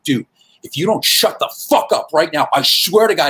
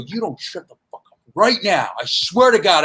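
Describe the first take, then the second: First: An uncomfortably serious warning to a heckler; comic dropping the jokes, grave and menacing; dead serious threat. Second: The same grave warning, said once more; flat-out serious, no joking; comic repeating the warning to the heckler, deadly serious; dead serious threat. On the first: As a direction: make him believe you mean it. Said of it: "I got very serious, like, uncomfortably serious". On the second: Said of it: "I got very serious". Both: Retold or imitated.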